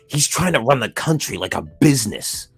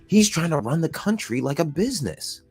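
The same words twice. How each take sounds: First: It is said in a critical, disapproving tone. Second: It is said in an approving, admiring tone. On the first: Running the country like a business is a bad thing. "I could also see why that is bad" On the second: Running the country like a business is a good thing. "Like that's good"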